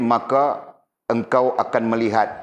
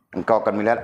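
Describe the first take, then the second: First: Slow verse reading. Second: Said in the usual way. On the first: Shown as a demonstration. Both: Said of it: "ayat Walid tadi".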